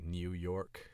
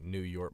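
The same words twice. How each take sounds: First: "New York" drawn out, with a Y slipped into "New"; Y glide in "New York". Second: Said in the usual way. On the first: Shown as a demonstration. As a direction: stretch "New York" slowly, saying "New" as "Nyoo". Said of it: "throw a Y in the middle of it". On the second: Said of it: "like, New York becomes".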